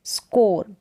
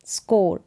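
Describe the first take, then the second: No difference in how they are said.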